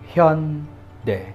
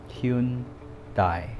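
First: The name is said with native Korean sounds. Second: The name is said as its English spelling reads. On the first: The speaker calls it right. "The correct pronunciation of that is Hyundai" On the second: The speaker calls it wrong. "because of romanization, many people thought it's Hyundai"

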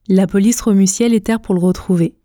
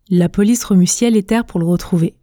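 Both takes have the same delivery.

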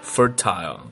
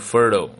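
First: The last syllable has a full vowel sound. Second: The last syllable has no vowel, only l.

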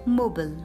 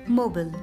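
First: It is said with an American English pronunciation. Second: It is said with an American English pronunciation.

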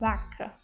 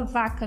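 First: The word begins with a b sound. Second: The word begins with a v sound. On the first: The speaker calls it right. "A gente vai falar vaca" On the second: The speaker calls it wrong. "A gente não vai falar vaca no espanhol, não"

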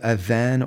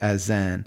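First: The middle consonant is a soft 'th' sound. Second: The middle consonant is a 'z' sound. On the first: "We call it the adhan" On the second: "some people pronounce it azan"

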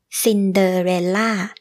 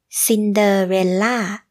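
First: The final syllable is stressed with a falling tone. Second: The same.

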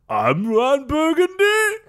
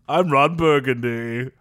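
First: The voice rises at the end like a question. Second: The voice falls at the end like a statement.

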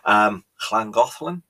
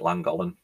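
First: The name is said in a Welsh-style way. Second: The name is said in an anglicized way. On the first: The speaker calls it right. "I think that's how you pronounce it" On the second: The speaker calls it wrong. "For years, I called it Llangollen"

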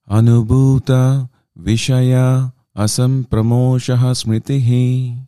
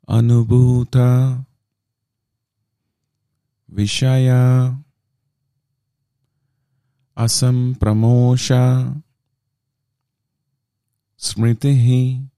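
First: It is recited at a faster pace. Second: It is recited at a slower pace.

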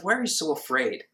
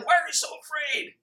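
First: The words are murmured softly. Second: The words are yelled loudly. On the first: He gently chides them on waking. "Or was it simply as He's waking up for His nap?" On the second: He scolds them forcefully. "did He yell it at Him?"

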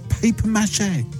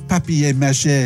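First: The first word sounds like English paper. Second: The first word has a French pronunciation. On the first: The speaker calls it wrong. "Can you say it properly, please?" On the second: The speaker calls it right. "That's better"

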